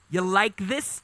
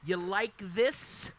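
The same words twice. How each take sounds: First: Said in the usual way. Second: Drawn-out, slow "You like this?"; mild mock seduction, very slow; slow teasing flirt. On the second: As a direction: stretch each word out to tease. Courting bird repeats the line.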